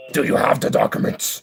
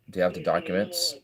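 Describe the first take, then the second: First: Rough put-on voice, pitched up; forceful, theatrical grilling; mock interrogation. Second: Said in the usual way. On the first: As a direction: demand it in a harsh put-on voice. Repeats question in put-on voice.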